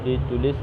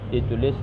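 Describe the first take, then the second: No difference in how they are said.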